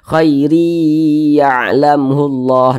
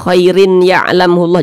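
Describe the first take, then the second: First: The n merges into y with a held hum. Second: A clear n sound is heard before the y. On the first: The speaker calls it right. "kita tahan seperti itu" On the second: The speaker calls it wrong. "Jangan dibaca khairin ya'lamullah"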